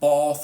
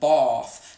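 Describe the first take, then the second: First: The vowel is far back and rounded. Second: The vowel is far back and unrounded. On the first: "sometimes it's even rounded like oh" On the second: "they say it all the way at the back"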